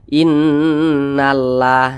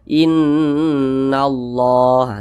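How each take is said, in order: First: The 'lah' is said thin and light. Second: The 'lah' is said thick and heavy. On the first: The speaker calls it wrong. "jangan dibaca innallah" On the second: The speaker calls it right. "tapi dibaca innallah, dibaca tebal"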